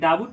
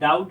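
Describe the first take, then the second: First: A b sound is heard in the middle. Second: No b sound is heard in the middle. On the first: The speaker calls it wrong. "ये डाबुट नहीं होता" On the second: The speaker calls it right. "बल्कि डाउट होता है"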